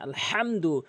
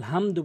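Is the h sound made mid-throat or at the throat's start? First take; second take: mid-throat; throat start. First: The h sound comes from the middle of the throat. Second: The h sound comes from the start of the throat. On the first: It means praise. The speaker calls it right. "বড় হা হিসাবে হা হলকের মাঝখান থেকে" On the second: The meaning changes. The speaker calls it wrong. "আলহামদু বলে অর্থ চেঞ্জ হয়ে যায়"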